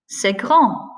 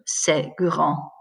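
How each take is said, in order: First: The voice rises at the end. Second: The voice falls at the end. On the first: It asks whether something is big. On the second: It states that something is big.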